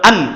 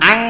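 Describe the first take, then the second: First: It ends with a clear, plain n sound. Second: It ends with a nasalized, ng-like sound. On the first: The speaker calls it wrong. "আন এরকম হবে না" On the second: The speaker calls it right. "আং হবে যে অনস্কার"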